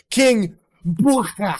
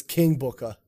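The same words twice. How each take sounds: First: Loud, drawn-out royal announcement; wrestling announcement. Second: Said in the usual way. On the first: Retold or imitated. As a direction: proclaim the name slowly, higher and louder. Mimics grand wrestling announcement of King Booker.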